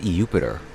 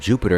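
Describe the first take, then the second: First: The name begins with an 'ee' sound. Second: The name begins with a 'j' sound. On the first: "I thought it was pronounced like E" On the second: "instead of Jupiter"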